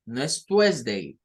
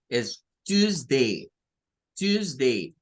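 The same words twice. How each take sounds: First: "Tuesday" with a w glide, twes-dei; wrong Tuesday; wrong pronunciation. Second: "Tuesday" slow as tuz-dei; correct pronunciation, slow. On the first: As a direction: say "Tuesday" as twesdei, the mistake. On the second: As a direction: stretch "Tuesday" as tuzdei. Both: Shown as a demonstration.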